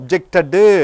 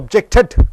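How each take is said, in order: First: The word ends with an added vowel sound. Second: The word ends sharply on a d sound. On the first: The speaker calls it wrong. "வராது" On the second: The speaker calls it right. "டிடி என்று வருகிறது"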